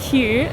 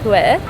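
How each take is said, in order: First: The name is pronounced the way it looks written. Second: The name is pronounced the local, checked way. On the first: The speaker calls it wrong. "we kept saying Hue" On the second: The speaker calls it right. "we checked that it was Hue"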